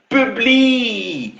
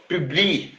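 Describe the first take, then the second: First: "Publie" pitched high with a long held ending; taunting long "Publie"; drawn-out dare. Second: Said in the usual way. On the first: Real, not acted. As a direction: stretch "Publie" high, then let it fall.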